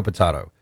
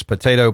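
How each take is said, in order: First: "potato" said as po-TAH-to, softer and lower; second potato. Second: "potato" said as po-TAY-to; "potato" with long TAY, lightly rising; first potato. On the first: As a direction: drop into po-TAH-to, trailing off. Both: Shown as a demonstration. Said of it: "As an old professor used to say".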